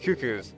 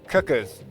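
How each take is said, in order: First: The first syllable does not sound like 'cuck'. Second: The first syllable sounds like 'cuck'. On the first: The speaker calls it right. "But it's cuckoos" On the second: The speaker calls it wrong. "it obviously could be pronounced cuck"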